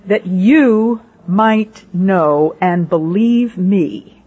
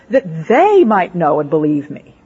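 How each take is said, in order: First: YOU drawn out, each word very slow and spaced; stress on YOU. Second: THEY hit hard, then the rest quicker and falling; stress on THEY. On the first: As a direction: lean on "you", then slow, deliberate words. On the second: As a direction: punch "they" as the surprising word. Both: Shown as a demonstration. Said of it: "I would have said".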